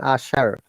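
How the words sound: The word ends with an R sound. "Americans pronunciation"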